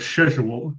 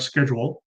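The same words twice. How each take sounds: First: The word is said the British way. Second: The word is said in a non-British way.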